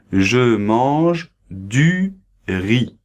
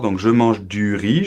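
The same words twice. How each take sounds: First: "Je mange du riz" very slow, each word apart; slow example sentence. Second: Said in the usual way. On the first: Shown as a demonstration. Teacher modelling the example sentence very slowly. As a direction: spell it out slowly for learners. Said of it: "Donc voilà, exemple". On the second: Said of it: "je pense que tu comprends bien".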